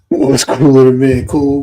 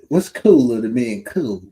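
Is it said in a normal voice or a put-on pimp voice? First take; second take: normal; pimp voice. First: It is said in his normal voice. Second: It is said in a put-on pimp voice.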